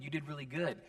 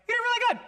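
First: It is said at a normal pitch. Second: It is said in a very high voice.

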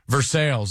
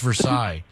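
First: The name is said with an English-style pronunciation. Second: The name is said with a French-style pronunciation. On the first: The speaker calls it wrong. "Every time somebody mispronounces a French name" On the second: The speaker calls it right. "No, it's Versailles"

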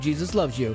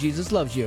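First: It is said in a calm, steady way. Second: The same.

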